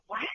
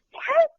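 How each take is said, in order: First: Said in the usual way. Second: "What?" shot up high and louder in disbelief; stunned what. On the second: Retold or imitated. Fans hearing the star on speakerphone, high loud "What?". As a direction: squeak out "What?" like you can't believe it.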